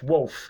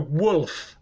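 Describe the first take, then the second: First: The L sounds like a W, 'wowf'. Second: The L is pronounced as a clear L. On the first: This is how the speaker naturally talks. "I want to say wolf. ... like W-O-W-F" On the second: The speaker feels they are putting on a voice. "But I have to go wolf. ... That's an affected way of speaking"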